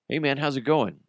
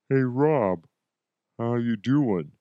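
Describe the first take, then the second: First: It is said at a normal speed. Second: It is said slowly with stretched-out words.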